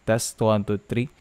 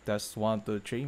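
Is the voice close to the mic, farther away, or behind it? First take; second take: close; farther away. First: The voice is close and sounds full. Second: The voice is farther off and sounds thinner. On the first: "malapit lang buong buo yung boses" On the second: "about six inches away"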